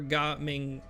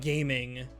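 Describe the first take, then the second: First: The name is read with a Cantonese pronunciation. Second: The name is read like the English word gaming. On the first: The speaker calls it right. "Ga Ming in Cantonese" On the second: The speaker calls it wrong. "it's not gaming"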